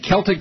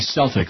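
First: The word begins with a hard K sound. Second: The word begins with a soft S sound. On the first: "Is that how you say it" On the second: "like the Boston Celtics"

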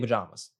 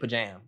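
First: The stressed vowel sounds like the one in palm. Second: The stressed vowel sounds like the one in jam. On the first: "I say pajamas. Like palm" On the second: "You say pajam, like jam"

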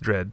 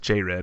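First: The J and R blend into one syllable. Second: The J and R are said as separate syllables. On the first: The speaker calls it right. "You just pronounce the J and the R together" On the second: The speaker calls it wrong. "Everyone says J-Red"

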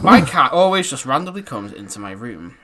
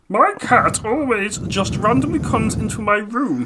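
First: It is said in his normal voice. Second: It is said in a put-on voice.

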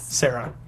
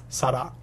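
First: The name is pronounced with English sounds. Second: The name is pronounced with Japanese sounds. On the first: "In English?" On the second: "And in Japanese?"

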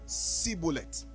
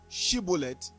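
First: The word begins with an 's' sound. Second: The word begins with an 'sh' sound. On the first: The speaker calls it wrong. "they will say Shibboleth, because the way their tongue was wired, pronouncing the word sh is a problem for them" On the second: The speaker calls it right. "Instead of Shibboleth"

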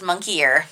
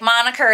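First: It is said like 'monkey ear'. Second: It is said as 'MON-ih-ker'. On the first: The speaker calls it wrong. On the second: The speaker calls it right.

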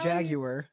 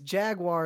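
First: Jaguar is said with a British pronunciation. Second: Jaguar is said with an American pronunciation. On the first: "That's the British way to say it" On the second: "At least Jaguar is somewhat American"

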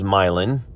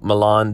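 First: It is said the local Indiana way. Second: It is said the usual European way. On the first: This names the small Indiana town. "we have Hoosier-fied them" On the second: This names the famous city abroad. "much like the town Milan is spelled"

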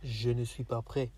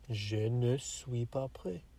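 First: The words are run together quickly. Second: The words are said slower, separated.

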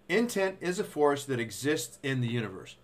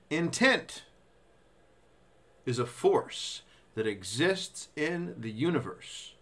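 First: The sentence is read at a normal, faster pace. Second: The sentence is read at a slow pace.

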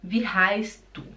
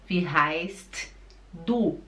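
First: The T in heißt is dropped. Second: The T in heißt is clearly pronounced. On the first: The speaker calls it right. "o T, ele desaparece. Você fala" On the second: The speaker calls it wrong. "você não fala wie heißt du. ... Não!"

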